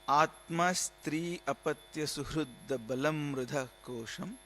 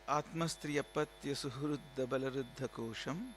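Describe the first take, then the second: First: It is said more slowly. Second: It is said at normal speed.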